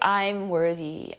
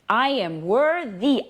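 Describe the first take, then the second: First: It is said flatly, without energy. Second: It is said with lively energy.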